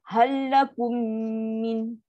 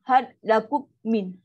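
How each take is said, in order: First: The words merge with a long nasal hum. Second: The words are split apart with a break. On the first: The speaker calls it right. "Kum panjang, dengung paling sempurna ... itu bunyi dia" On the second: The speaker calls it wrong. "contoh kita baca asing-asing tu ... kan dia bunyi apa macam pelik tu"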